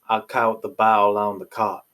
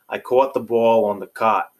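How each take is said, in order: First: It has a Southern accent. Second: It has a New York/Mid-Atlantic accent.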